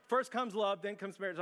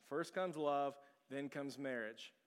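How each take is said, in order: First: Dawning realization. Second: Slow and softer, still not getting "First comes love, then comes marriage"; slow, puzzled reading. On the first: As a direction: say "First comes love" as the penny drops. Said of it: "And so I'm going". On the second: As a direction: sound the words out blankly, "then comes marriage" slowest. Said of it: "It takes me a little longer". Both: Retold or imitated.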